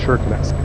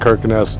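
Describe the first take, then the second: First: The name begins with an SH sound. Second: The name begins with a hard K sound. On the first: The speaker calls it right. "the guy at the desk told us it's Shirkenes" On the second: The speaker calls it wrong. "we were calling it Kirkenes the whole way up there"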